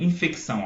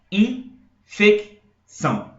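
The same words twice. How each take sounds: First: Said in the usual way. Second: "Infecção" very slowly in three bursts: IN, FEC, ÇÃO; syllable by syllable. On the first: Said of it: "como é que eu falo". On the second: Shown as a demonstration. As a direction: separate "Infecção" with long pauses, first syllables louder. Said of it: "Eu jogo de uma vez só".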